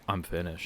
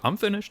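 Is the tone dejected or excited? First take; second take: dejected; excited. First: It sounds dejected and defeated. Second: It sounds excited and pleased.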